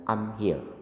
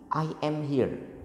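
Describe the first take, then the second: First: The first two words merge into one short syllable. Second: Each word is said fully and separately. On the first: "ngomongnya pasti singkat" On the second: "Itu pas marah"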